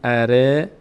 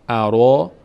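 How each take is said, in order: First: The r is light, with a thin following vowel. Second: The r is heavy, with a full open vowel. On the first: The speaker calls it wrong. "نمیگیم اره" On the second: The speaker calls it right. "را پر خوانده میشه"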